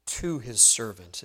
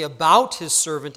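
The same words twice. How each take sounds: First: "to" set apart and stressed after a pause. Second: "about" punched louder in "about his servant"; stress on ABOUT. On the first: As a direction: lean on the word "to", then let the rest fall. Contrasts speaking to with about. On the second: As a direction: lean hard on the word "about" for contrast. Contrasts speaking about with to. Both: Shown as a demonstration.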